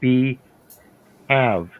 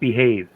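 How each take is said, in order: First: It is said as two separate words. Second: It is said as one ordinary word. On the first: The speaker calls it right. "If you separate the two words" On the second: The speaker calls it wrong. "That is not the proper pronunciation"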